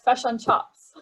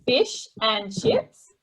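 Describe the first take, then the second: First: It is said in a New Zealand accent. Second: It is said in an Australian accent. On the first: "if you're a Kiwi, say like" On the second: "in Australia would say"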